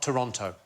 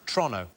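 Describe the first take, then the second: First: It is said slowly, every syllable full. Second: It is said very quickly, clipped short.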